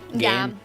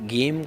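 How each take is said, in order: First: The word has an altered vowel sound. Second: The word has its usual vowel sound.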